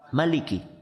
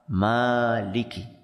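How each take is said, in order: First: The first vowel is kept short. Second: The first vowel is held long. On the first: It means king or ruler. "Cara membaca yang kedua apa? ... Pendek" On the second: It means owner. "Kalau tadi apa?"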